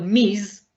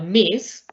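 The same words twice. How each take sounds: First: The word ends with a buzzing z sound. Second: The word ends with a hissing s sound. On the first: It is unknown whether the woman is married. "es como la Z" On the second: The woman is known to be young and unmarried. "el Miss de soltera"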